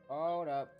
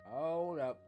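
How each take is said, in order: Both takes have the same delivery.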